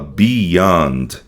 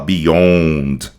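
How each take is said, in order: First: The O vowel is lighter, less stressed. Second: The O vowel is strongly stressed. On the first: The speaker calls it right. "A gente fala beyond" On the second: The speaker calls it wrong. "A gente não vai falar beyond"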